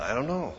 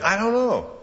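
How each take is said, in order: First: Said in the usual way. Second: Higher, puzzled "I don't know" tossed up; exasperated shrug. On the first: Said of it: "Now, why would he need a second opinion?". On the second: Shown as a demonstration. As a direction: throw up your hands on "I don't know". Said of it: "Why would he want a second opinion?".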